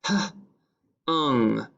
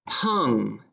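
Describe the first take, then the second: First: "H-ung" as a puff of h, pause, then ung; sounded out. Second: Said in the usual way. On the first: Shown as a demonstration. Teacher sounding out a dictation word, "H-ung" in two parts. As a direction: break "H-ung" into h and ung. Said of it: "and ung". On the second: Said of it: "Number two is hung".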